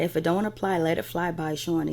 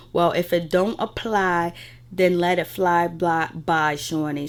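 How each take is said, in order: First: Said in the usual way. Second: Slow, deliberate retold dig; drawn-out retort. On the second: Recapping Malaysia's confessional to viewers, slow and deliberate. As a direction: stretch the words out for effect. Retelling a cast member's pointed confessional line.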